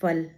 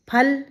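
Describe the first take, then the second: First: फल said with F instead of aspirated P; teacher demonstrating F at the start of फल; nukta pronunciation. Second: Said in the usual way. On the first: Shown as a demonstration. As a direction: start फल with teeth on lip, an F. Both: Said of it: "ये उच्चारण का अर्थ".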